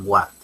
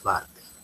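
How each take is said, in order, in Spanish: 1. El nombre empieza con un sonido w. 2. El nombre empieza con un sonido b. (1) "Hay algunos que dicen Warte" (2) "Es Barte"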